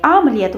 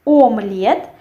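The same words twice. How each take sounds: First: Omelette starting on A, "amlyet"; as spoken, with A. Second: Omelette spelt out with a clear O, "omlyet"; as written. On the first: Teacher shows how it is said, with A. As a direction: open the first vowel of omelette to A, stress at the end. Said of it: "we say omelette with A". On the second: Teacher reads it as written, with O. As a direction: say omelette as Russian spelling, starting on O. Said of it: "we write omelette". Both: Shown as a demonstration.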